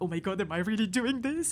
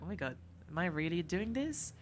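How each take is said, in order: First: It sounds excited and thrilled. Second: It sounds doubtful and uneasy.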